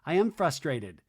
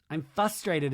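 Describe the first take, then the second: First: Said in the usual way. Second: "frustrated" with the first r dropped; Lisa Barlow. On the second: Retold or imitated. Host mimics how it would be said, "frustrated" as "fustrated". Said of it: "as Lisa Barlow would say".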